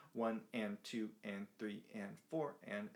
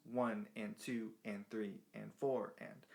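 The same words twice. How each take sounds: First: Each syllable held evenly; even straight count. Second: Long-short lilt on each beat, slower; swung count. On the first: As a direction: count one and two and, all equal in length. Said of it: "straight eighth notes". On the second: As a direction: lean on each number, clip each and. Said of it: "swung eighth notes". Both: Shown as a demonstration.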